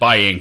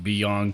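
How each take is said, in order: First: The name starts with a 'by' sound. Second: The name starts with a 'bee' sound. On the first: The speaker calls it wrong. "I've pronounced it Byang forever, and I just recently realized I've been pronouncing it wrong" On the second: The speaker calls it right. "It's actually pronounced Beyong"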